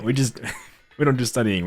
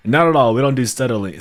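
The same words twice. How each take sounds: First: Giggling through the repeat; amused chuckling retake; laughing repeat. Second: Much louder, punchy and defiant; playful outraged protest; mock indignant denial. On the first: Real, not acted. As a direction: break into laughter on it. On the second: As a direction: bark it like an offended dwarf. Jokingly denying studying.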